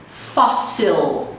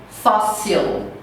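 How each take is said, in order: The two takes are said the same way.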